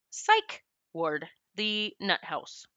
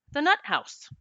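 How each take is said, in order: First: "psych ward" then a slow, dropped "the nut house"; slow and soft on "the nut house"; pointed "nut house". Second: "the nut house" said higher with a drop on "nut"; punchy "nut house". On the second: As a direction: lift "nut" then let "house" fall. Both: Shown as a demonstration. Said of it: "that's what I call it".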